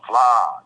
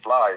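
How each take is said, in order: First: The vowel is stretched out long. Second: The word is said quickly and cut short. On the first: The speaker calls it right. "It's long, fly. You know, we stretch it" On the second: The speaker calls it wrong. "we don't say fly and quit"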